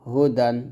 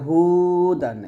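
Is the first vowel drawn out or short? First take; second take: short; drawn out. First: The first vowel is kept short. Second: The first vowel is drawn out long. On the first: The speaker calls it right. "পড়তে হবে" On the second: The speaker calls it wrong. "এরকমভাবে টেনে পড়তে পারবো না"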